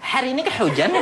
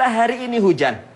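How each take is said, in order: First: The h sounds are breathy, pushed from the chest. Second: The h sounds are light and ordinary. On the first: "Gak pernah kan pakai hak kecil" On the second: "Hak besar itu biasa bilang kita"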